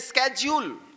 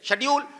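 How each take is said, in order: First: The word begins with an 'sk' sound. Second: The word begins with a 'sh' sound. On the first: "लेकिन America में इसे ही बोलते हैं" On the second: "हम उनके गुलाम रहे, तो हम भी क्या बोलते हैं"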